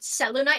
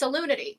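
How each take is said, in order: First: The word ends with a 'nite' sound. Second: The word ends with a 'nity' sound. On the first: "you probably think it's pronounced not Selunite" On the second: "oh, it's Salunity"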